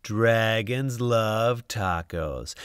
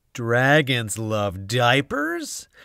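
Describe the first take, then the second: First: Slow, pleased correct title; satisfied slow title. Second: Slow, puzzled wrong title; puzzled slow misread. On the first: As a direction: savour the right words. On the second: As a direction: read it slowly, baffled. Garbled title. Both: A narrator's reading.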